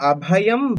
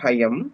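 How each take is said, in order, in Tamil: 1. சொல் தனியாக, அதன் முதல் உயிரெழுத்தோடு சொல்லப்படுகிறது. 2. சொல் சேர்த்து சொல்லப்படுகிறது, அதன் முதல் உயிரெழுத்து கலந்து மறைகிறது. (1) "யுக்மே பிரிச்சதுனால இங்க அபயம்" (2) "சேர்த்து சொல்லும் போது"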